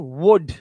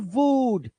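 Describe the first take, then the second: First: The vowel is a short oo sound. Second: The vowel is a long oo sound. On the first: The speaker calls it right. "छोटा ऊ होता है" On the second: The speaker calls it wrong. "ना कि"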